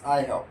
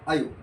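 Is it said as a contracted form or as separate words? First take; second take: separate; contracted. First: It is said as two separate full words. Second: It is said as one short contracted syllable. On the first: "आय plus हॅव म्हणजेच आय हॅव" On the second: "आय अपास्ट्रॉफी व्हीई ... pronunciation"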